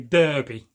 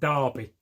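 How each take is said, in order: First: It is said with an American pronunciation. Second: It is said with a British pronunciation. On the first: "Americans will say Derby" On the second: "but we pronounce it Derby"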